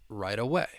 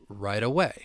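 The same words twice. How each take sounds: No difference in how they are said.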